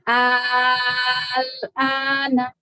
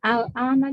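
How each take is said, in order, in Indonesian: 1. Vokal pembuka dibaca panjang. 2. Vokal pembuka dibaca pendek. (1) "Itu dipanjangkan enam harokat" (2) "kalau nggak dipanjangin"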